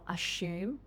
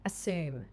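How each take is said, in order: First: A 'y' sound comes before the vowel. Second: No 'y' sound comes before the vowel. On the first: "the Australian or British pronunciation first" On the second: "then the American version"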